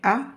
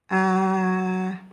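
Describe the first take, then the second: First: The vowel is lengthened for two counts. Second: The vowel is lengthened for four counts. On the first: "On prend la hamza et j'allonge" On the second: "si je rallonge avec les quatre temps"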